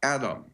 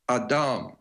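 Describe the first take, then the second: First: It is said with an English pronunciation. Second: It is said with a Hebrew pronunciation. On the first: The speaker calls it wrong. "not Adam, A D A M" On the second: The speaker calls it right. "the word is A D M"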